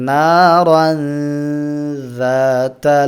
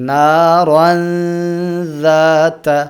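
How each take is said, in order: The two takes are said the same way.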